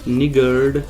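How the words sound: The r sound is clearly pronounced. This is how Americans say it. "निगर्ड आर pronounce करते हैं"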